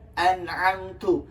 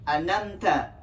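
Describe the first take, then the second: First: The throat consonant is pronounced before the m. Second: The throat consonant is dropped before the m. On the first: The speaker calls it right. "Yang seharusnya kita baca an'amtu" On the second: The speaker calls it wrong. "huruf ainnya itu tidak dibaca, dikurangi"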